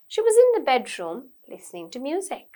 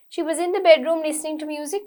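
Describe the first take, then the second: First: There is a short pause inside the sentence. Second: The sentence runs on without any pause. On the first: The speaker calls it right. "Short pause" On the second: The speaker calls it wrong. "We don't say it"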